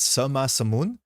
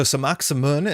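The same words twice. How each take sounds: First: Sama Samun as suh-ma sa-moon; silent K. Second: Samak Samun with a hard k; old pronunciation. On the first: Streamer correcting the name, Sama Samun without k. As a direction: leave Sama open, no k, before Samun. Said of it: "you don't get that K". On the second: Streamer showing the previous way, Samak Samun with k. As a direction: close Samak on K before Samun. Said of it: "is how we've been saying it". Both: Shown as a demonstration.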